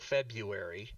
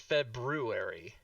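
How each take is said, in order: First: The second syllable sounds like 'byoo'. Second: The second syllable sounds like 'broo'. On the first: "the first pronunciation is F E B Y O O" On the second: "The second pronunciation is"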